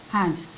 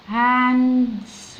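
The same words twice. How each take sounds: First: Said in the usual way. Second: هاندز drawn out, lingering through to the final s; sounded out slowly. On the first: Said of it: "بالاس الأخيرة". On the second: Shown as a demonstration. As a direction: stretch هاندز so each sound joins the next. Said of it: "ندخل على الدي".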